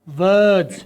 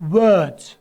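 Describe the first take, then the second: First: It starts with a V sound using the lower lip. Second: It starts with a W sound using rounded lips. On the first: The speaker calls it wrong. "मैं जानबूझ के गलत बोल रहा था ... मैं वी की आवाज निकाल रहा हूं" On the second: The speaker calls it right. "आप दोनों होंठ बाहर निकाल के बोलेंगे"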